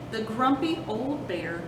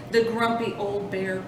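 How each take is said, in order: Both takes have the same delivery.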